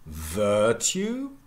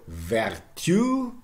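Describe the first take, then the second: First: "virtue" as VUR-tyoo, slow; first-syllable stress. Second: "vertu" as ver-TYOO, slow; slow "vertu", second syllable stretched; Middle English pronunciation. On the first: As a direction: stress VIR in "virtue", keep the y-glide. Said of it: "becomes virtue". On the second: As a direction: say "vertu" with r and final stress. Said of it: "So first of all". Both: Shown as a demonstration.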